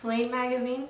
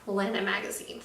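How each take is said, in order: First: The name sounds like 'lane', one syllable. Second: The name sounds like 'lena', two syllables. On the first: The speaker calls it wrong. "at first I was I was stuck with Lane" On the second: The speaker calls it right. "the correct pronunciation"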